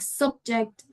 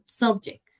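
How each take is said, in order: First: The final consonant sound is clearly said. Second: The final consonant sound is left off. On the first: The speaker calls it right. "we actually say the final sound" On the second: The speaker calls it wrong. "people sometimes don't pronounce the last sound"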